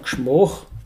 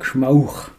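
First: It is said in the local Tyrolean dialect with o. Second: It is said in the Pinzgau dialect with au.

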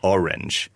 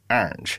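First: It is said in a plain American accent. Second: It is said in Zoe's honking English accent.

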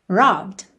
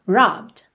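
First: The b runs straight into the final d. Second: The same.

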